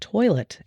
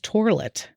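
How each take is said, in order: First: The word is pronounced the usual way. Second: The word is pronounced in an unusual way. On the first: The speaker calls it right. "pronounced the word toilet" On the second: The speaker calls it wrong. "as toilet"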